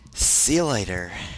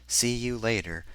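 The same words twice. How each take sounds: First: The phrase is pronounced in an odd way. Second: The phrase is pronounced in a usual way. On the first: The speaker calls it wrong. "I pronounced that whole darn thing weird" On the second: The speaker calls it right. "That's how most people say that"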